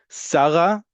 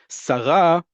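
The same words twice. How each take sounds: First: The stress is on the first syllable. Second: The stress is on the last syllable. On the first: It is the personal name. "the name" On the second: It means a female minister. "the emphasis on the last syllable, is a female minister"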